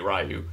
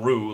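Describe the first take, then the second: First: It starts with an English R plus a y-glide. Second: It starts with an English R, rhyming with roo. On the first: "It's not Ryu like Street Fighter the movie Ryu" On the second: "It's not Rue like kangaroo"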